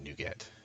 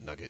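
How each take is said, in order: First: It does not sound like the word nugget. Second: It sounds like the word nugget. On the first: It is the way some other people say it. "Some people pronounce it NuGet" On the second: It is the speaker's own way of saying it. "I call it Nugget because like they're little nuggets of code"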